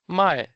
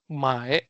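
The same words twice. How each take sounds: First: The syllable is said with a falling tone. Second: The syllable is said without a falling tone. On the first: It means to sell. "pronounced as my with fourth tone" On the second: It means to buy. "One with her tone"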